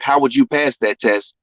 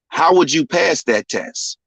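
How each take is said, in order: First: It sounds like a confrontational, challenging question. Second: It sounds like a sincere, curious question. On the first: The asker is testing or provoking the listener. "not being like" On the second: The asker genuinely wants to know the answer. "this is just me really wanting to know"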